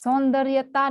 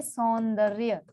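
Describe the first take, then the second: First: सौंदर्यता with an extra "taa" ending; wrong form. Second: सौंदर्य ending on "rya"; correct form. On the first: Teacher citing the error, सौंदर्यता ending in "taa". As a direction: add ता to the end of सौंदर्यता. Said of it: "सौंदर्यता नहीं होता". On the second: Teacher giving the right word, सौंदर्य ending in "rya". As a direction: finish सौंदर्य at र्य, no "taa". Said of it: "या लिखेंगे सौंदर्य". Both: Shown as a demonstration.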